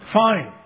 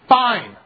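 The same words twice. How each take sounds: First: It is said in a plain, neutral tone. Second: It is said in a curt, resentful tone. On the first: Things are okay. "We say" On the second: Something is wrong and the speaker is bitter. "Sometimes we say it like this"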